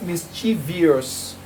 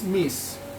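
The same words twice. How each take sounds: First: The word has an extra ee sound, four syllables. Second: The word has no extra ee sound, three syllables. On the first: The speaker calls it wrong. "the word is not mischievous" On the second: The speaker calls it right. "The word is mischievous. Please, there is no I in mischievous"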